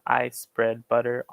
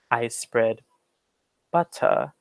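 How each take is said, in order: First: It is spoken in an American accent. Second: It is spoken in a British accent. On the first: "I say this in the American way" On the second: "in a British standard way"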